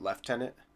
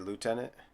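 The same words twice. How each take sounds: First: The first syllable sounds like 'left'. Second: The first syllable sounds like 'loo', without 'f'. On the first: "you guys say what, lieutenant? Like as in left, not right" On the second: "we say lieutenant"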